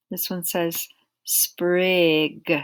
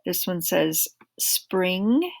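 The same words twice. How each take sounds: First: "sprig" very slow, ending in a crisp hard g, no n; careful sprig. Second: "spring" very slow, ending in a clear ng; careful spring. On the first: Teacher contrasting sprig and spring, slow and precise. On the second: Teacher contrasting spring and sprig, slow and precise. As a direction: draw out the ng at the end of "spring". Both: Shown as a demonstration. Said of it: "make sure we say them correctly".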